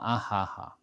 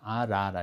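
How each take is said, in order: First: The middle consonants sound like h. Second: The middle consonants sound like r. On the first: The speaker calls it wrong. "a gente não fala ahaha" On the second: The speaker calls it right. "a gente pronuncia como ra"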